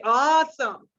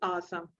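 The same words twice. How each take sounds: First: It is said with lively, expressive tone. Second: It is said flatly, without expression. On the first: The speaker calls it right. "These kind of words required action into your face and in your tone of voice. You will say" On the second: The speaker calls it wrong. "The way to use the word, this word, is not like, oh, this is awesome. Never"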